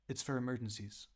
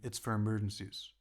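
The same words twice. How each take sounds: First: It is said in a high voice. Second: It is said in a firm, lower voice.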